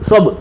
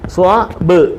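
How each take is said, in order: First: The two parts are run together quickly, no break. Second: The two parts are said apart, with a break.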